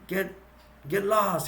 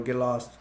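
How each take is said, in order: First: Higher-pitched mock-angry dismissal; retold mad outburst. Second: Said in the usual way. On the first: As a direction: act out snapping at a pestering bird. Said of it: "He gets mad". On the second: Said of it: "And Frank, it's irritating".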